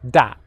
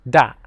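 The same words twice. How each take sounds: First: It begins with a hard d sound. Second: It begins with a hard d sound.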